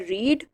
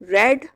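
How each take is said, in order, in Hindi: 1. स्वर 'ee' जैसी लंबी ध्वनि है। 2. स्वर 'e' जैसी छोटी ध्वनि है। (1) "लिखने में स्पेलिंग रीड वाले ही रहेंगे" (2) "लेकिन बोलने में ये रेड हो जाएगा"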